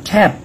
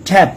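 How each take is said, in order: The two takes are said the same way.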